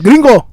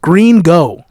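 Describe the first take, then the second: First: It is run together in a Spanish accent. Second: It is said as two plain English words. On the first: "Say it with a Spanish accent" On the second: "the actual name is Green Go"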